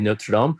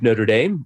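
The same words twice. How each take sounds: First: The name is said with a French pronunciation. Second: The name is said with an American pronunciation. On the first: This is the original way to say it. The speaker calls it right. "We don't say Notre Dame" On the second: This is how people there say it. The speaker calls it wrong. "we don't say it properly"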